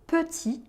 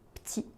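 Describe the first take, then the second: First: The first vowel is fully pronounced. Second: The first vowel is dropped. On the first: "le mot petit" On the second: "est souvent prononcé"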